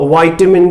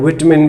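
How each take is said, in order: First: The first syllable is said as 'vai'. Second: The first syllable is said as 'vi'. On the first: "वाइटामिन भी कह देते हैं" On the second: "विटामिन भी कह देते हैं"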